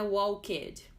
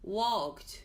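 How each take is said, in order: First: The -ed ending is said as an extra syllable. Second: The -ed ending adds no extra syllable. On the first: The speaker calls it wrong. "Não é walked" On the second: The speaker calls it right. "o E é silencioso"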